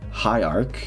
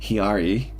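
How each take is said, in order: First: The word ends with a clear final k sound. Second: The word ends without a final k sound. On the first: The speaker calls it right. "it actually pronounces hierarch" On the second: The speaker calls it wrong. "I actually say hiari"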